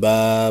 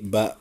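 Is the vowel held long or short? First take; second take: long; short. First: The vowel is drawn out long. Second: The vowel is cut short. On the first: The speaker calls it wrong. "Bukan ba" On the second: The speaker calls it right. "tapi ba ... kalau harokatnya miring berarti dibaca pendek"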